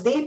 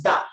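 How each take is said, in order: First: "the" said "dee". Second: "the" said "duh". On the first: Teacher summing up the vowel rule, "the" pronounced "dee". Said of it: "before vowel sounds the". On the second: Teacher summing up the consonant rule, "the" pronounced "duh". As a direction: say "the" with a short open vowel. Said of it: "before consonant sounds the". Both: Shown as a demonstration.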